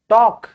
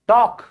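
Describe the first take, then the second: The two takes are said the same way.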